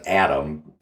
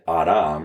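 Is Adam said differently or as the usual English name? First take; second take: usual name; differently. First: It is the usual English name pronunciation. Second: It is not the usual English name pronunciation. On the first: It is a personal name. "the name thing" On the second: It means a human being of the earth, not a name. "I'm saying it Adam rather than Adam to get away from the name thing"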